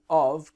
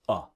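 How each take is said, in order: First: The word is said fully with a v sound. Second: The word is reduced to a short schwa. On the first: "Of has like a V sound normally" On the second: "when we pronounce quickly, the word of can become uh"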